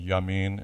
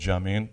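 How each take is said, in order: First: The name begins with a Y sound. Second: The name begins with a J sound. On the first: "and Yamin" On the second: "I'm going to use American pronunciation for now"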